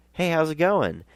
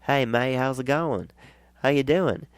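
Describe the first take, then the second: First: Put-on high, eager hello in own accent; upbeat hello, voice lifted high; high-pitched friendly greeting. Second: Put-on high, friendly Australian accent; imitated Australian accent, lifted and cheery; Aussie accent. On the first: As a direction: call a greeting, pitched well up. His own greeting, before the accented reply. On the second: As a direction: greet like an Aussie mate, pitched up. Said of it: "in that wonderful Aussie accent".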